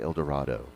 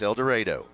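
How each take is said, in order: First: The name is said the choir-taught way. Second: The name is said the local way. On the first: The speaker calls it wrong. "I was taught to say El Dorado" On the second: The speaker calls it right. "It's El Dorado"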